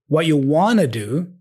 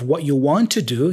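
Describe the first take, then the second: First: The words run together with reduced sounds. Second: Each word is said fully and separately. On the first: "More connected speech here" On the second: "instead of"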